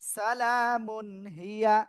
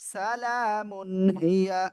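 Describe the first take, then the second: The two takes are said the same way.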